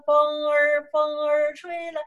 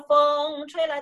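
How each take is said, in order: First: The first word ends with an r-sound. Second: The first word has no r-sound. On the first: The speaker calls it right. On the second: The speaker calls it wrong.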